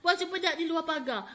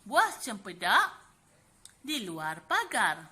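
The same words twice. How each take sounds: First: It is read quickly, rushed without pausing. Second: It is read slowly, with room to breathe. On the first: The verse is recited in a hurried, flustered way. The speaker calls it wrong. "Kalau baca laju-laju" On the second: The verse is recited calmly and politely. The speaker calls it right. "kan sempat bernafas tu"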